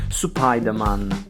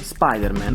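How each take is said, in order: First: It is said with a Japanese-style pronunciation. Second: It is said with an ordinary English-style pronunciation.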